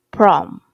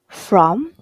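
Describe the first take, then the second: First: The word begins with a p sound. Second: The word begins with an f sound. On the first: The speaker calls it wrong. "was mispronounced as prom" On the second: The speaker calls it right. "the word from"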